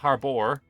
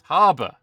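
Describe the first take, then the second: First: The word is said with an American pronunciation. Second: The word is said with a British pronunciation. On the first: The speaker calls it wrong. "It's not harbor" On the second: The speaker calls it right. "It's harbor"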